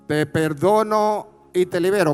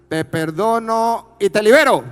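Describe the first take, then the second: First: It is said at normal volume. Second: It is said louder and stronger.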